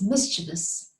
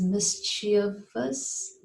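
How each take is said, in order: First: "mischievous" as MIS-chi-vus, the V sounded; corrected "mischievous", MIS-chi-vus; right mischievous. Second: "mischievous" said MIS-chee-us, the V dropped; wrong mischievous. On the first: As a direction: say "mischievous" with three parts and a clear V. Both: Shown as a demonstration. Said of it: "But it isn't like that".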